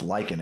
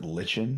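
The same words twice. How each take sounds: First: The middle consonant is a 'k' sound. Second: The middle consonant is a 'ch' sound. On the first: This is the accepted pronunciation. The speaker calls it right. "now that it's pronounced lichen" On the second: This is how it looks from the spelling. The speaker calls it wrong. "I pronounced it lichen because I mean C H"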